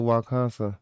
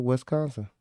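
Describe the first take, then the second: First: Wisconsin mangled into "wah-KAHN-suh"; deliberately botched Wisconsin. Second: Wisconsin with a clear "wes" opening, "wes-KAHN-suh"; properly said Wisconsin. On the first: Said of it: "I fucked Wisconsin up on purpose though". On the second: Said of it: "when I said the right Wisconsin". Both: Shown as a demonstration.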